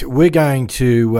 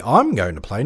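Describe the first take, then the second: First: Said in the usual way. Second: I'm lifted with a rising push; stress on I'm. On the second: Real, not acted. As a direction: lean on I'm to correct we. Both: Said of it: "not we".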